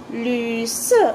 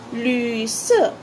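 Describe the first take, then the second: No difference in how they are said.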